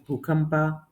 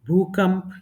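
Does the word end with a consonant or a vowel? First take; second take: vowel; consonant. First: The word ends with a full final a vowel. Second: The word ends on a consonant, vowel cut short. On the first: This is the Kannada form. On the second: This is the Hindi form.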